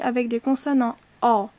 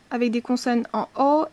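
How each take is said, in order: First: "o" said open, towards a long "â"; name the series with a wide open "o"; first-series vowel. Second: "o" said rounded and closed, like "ô"; name the series with a rounded "o"; second-series vowel. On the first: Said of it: "et une dernière ligne". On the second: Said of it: "une ligne avec des consonnes en o". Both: Shown as a demonstration.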